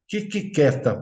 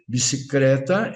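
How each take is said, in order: First: The word begins with a k sound. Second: The word begins with a b sound. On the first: The speaker calls it wrong. "ela diz quiquiqueta" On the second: The speaker calls it right. "ao invés da criança dizer bicicleta"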